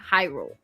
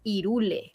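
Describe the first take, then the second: First: The word begins with an audible H sound. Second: The word begins with no H sound. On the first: This is how the name was said in the English version. "So for us, it has always been Hyrule" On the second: This is how the name is said in Spanish. "H, it doesn't have a pronunciation. So in Spanish, it's Irule"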